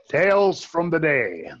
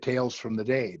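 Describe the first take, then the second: First: It is said in a booming radio announcer voice. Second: It is said in a plain, ordinary speaking voice. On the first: "Now you feel like on everybody else's show" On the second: "you didn't do it in a radio announcer voice"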